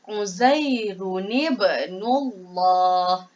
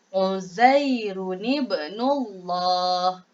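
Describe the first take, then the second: No difference in how they are said.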